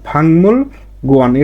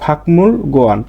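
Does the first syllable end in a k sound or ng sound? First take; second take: ng; k. First: The first syllable ends with an ng sound. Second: The first syllable ends with a k sound. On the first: The speaker calls it right. "এটা এর সঠিক উচ্চারণ" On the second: The speaker calls it wrong. "সাধারণভাবে যদি এটার উচ্চারণ করি"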